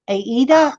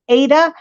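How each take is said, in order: First: It is said as Aida. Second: It is said as Ada. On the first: The speaker calls it wrong. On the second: The speaker calls it right.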